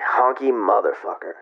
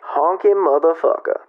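First: It is said as an insult. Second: It is said with approval, as praise.

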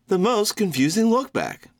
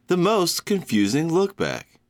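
First: It is said with lots of energy. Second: It is said with little energy.

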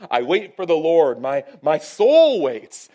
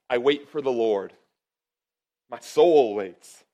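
First: It is said with intense, yearning feeling. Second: It is read plainly, without special feeling.

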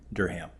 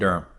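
First: It is pronounced the way outsiders say it. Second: It is pronounced the way locals say it. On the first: The speaker is not from the city. "instead of like Durham" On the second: The speaker is from the city. "they've kind of grew up saying Durham"

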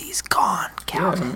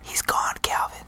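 First: It is spoken in a normal voice. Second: It is spoken in a whisper.

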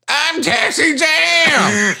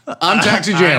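First: It is said in Taxi Jam's put-on voice. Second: It is said in his normal voice.

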